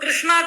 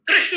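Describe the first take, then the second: First: The word ends with an added long 'aa' vowel. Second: The word ends without a final long vowel. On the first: The speaker calls it wrong. "उसको कृष्णा कर दिए" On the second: The speaker calls it right. "कृष्ण है"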